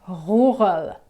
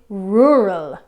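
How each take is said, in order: First: The R is made in the back of the throat. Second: The R is made toward the front, no throat sound. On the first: "but the French say rural. Okay, it's more in the back of your throat" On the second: "in English, when we pronounce it, we say rural"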